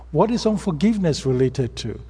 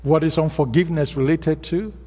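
First: IS pressed, question falling at the end; stress on IS. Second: WHAT lifted, question rising at the end; stress on WHAT. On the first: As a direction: push the word is and let the question drop. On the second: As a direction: lean on the word What and let the question rise. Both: Shown as a demonstration.

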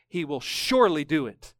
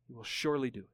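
First: Said in the usual way. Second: "He will surely do it" repeated much softer and lower, "surely" gently held; hushed echo. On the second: Real, not acted. Preacher quietly echoing the verse to the congregation, hushed. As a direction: let the line fall to a near hush. Reads the promise, then echoes it.

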